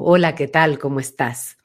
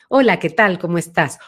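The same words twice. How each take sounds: First: The voice has a deep, back resonance. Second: The voice has a medium, central resonance.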